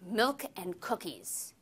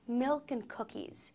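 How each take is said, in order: First: The voice sounds angry and harsh. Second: The voice sounds loving and warm. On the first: "Say it angrily"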